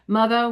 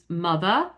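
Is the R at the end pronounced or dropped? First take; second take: pronounced; dropped. First: The final R sound is pronounced. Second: The final R sound is dropped.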